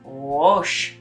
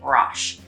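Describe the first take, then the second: First: The vowel in Roche sounds rounded, like 'row'. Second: The vowel in Roche sounds harsh. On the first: The speaker calls it right. "like the word row, and you say more Roche" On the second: The speaker calls it wrong. "making it harsher and saying Roche"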